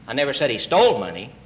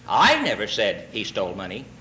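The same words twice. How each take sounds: First: The stress falls on the word he. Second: The stress falls on the word I.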